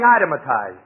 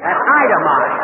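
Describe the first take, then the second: First: Itematized with an extra syllable, eye-tem-a-tized; mispronounced itemized. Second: Itemized said slowly as eye-tem-ized; correct itemized. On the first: Retold or imitated. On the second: Shown as a demonstration. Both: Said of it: "That's itemized".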